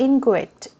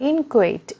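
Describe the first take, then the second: The two takes are said the same way.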